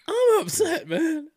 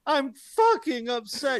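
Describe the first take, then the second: First: Mock an emotional speech that cracks; cracking voice. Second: High, loud, slow cracking shout. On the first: Mocking the coach's speech, voice cracking high and loud. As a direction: voice cracks much higher and louder. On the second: Retold or imitated. Mocking the coach's speech, high slow cracking shout. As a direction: overdo the voice breaking on upset. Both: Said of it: "His voice cracking during that speech".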